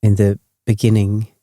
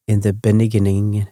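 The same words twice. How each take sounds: The two takes are said the same way.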